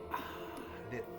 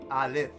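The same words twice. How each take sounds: First: It is said breathily, like an exhaled breath. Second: It is said in a plain, ordinary voice. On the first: The speaker calls it right. "It's a breath" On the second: The speaker calls it wrong. "They don't say it like like you say a, a letter or a word"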